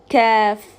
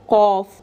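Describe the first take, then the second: First: The letter is said light, with a thin sound. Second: The letter is said heavy, with a thick sound. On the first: The speaker calls it right. "keeping the sifat of tarqiq, of lightness" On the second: The speaker calls it wrong. "when you make it heavy and say cough"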